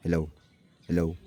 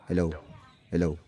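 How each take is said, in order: Both takes have the same delivery.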